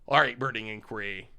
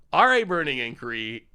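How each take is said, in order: First: Said in the usual way. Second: Louder, emphatic card call; hyped-up announcement; louder repeat. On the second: Shown as a demonstration. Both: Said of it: "repeats louder".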